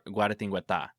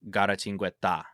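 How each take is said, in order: First: The T sounds like a soft 'th'. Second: The T sounds closer to 'ch'. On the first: The speaker calls it wrong. "I want to say it in Spanish as Guaratingueta" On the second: The speaker calls it right. "the U A is not as emphasized and the T is more like a, a T or a C H sound"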